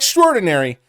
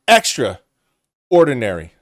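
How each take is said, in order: First: It is said as one joined word. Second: It is said as two separate words. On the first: The speaker is remarkable. The speaker calls it wrong. "Not extraordinary" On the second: The speaker is very plain and average. The speaker calls it right.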